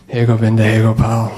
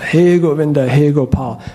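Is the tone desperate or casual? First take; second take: casual; desperate. First: It is said casually, bored and impatient. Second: It is cried out with heartfelt desperation.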